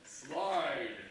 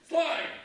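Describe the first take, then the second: First: It is said more slowly. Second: It is said faster.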